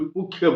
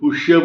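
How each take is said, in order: First: The middle sound is a 'kh' sound. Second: The middle sound is a 'sh' sound. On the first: This is how other people, by region, say it. "कोई पुख्य बोलता है" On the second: This is how some people say it. "कोई पुष्य बोलता है"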